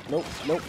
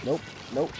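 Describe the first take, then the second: No difference in how they are said.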